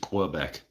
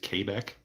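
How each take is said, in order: First: The word has an English pronunciation. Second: The word has a French pronunciation. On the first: The speaker calls it wrong. "English is Quebec. I mean, yeah, if you want to say it wrong" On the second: The speaker calls it right. "French pronunciation is Quebec"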